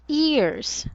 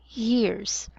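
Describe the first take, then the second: First: The word starts directly with a vowel. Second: The word starts with a clear Y sound. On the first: The speaker calls it wrong. "it's not ears" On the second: The speaker calls it right. "we should enunciate the Y sound"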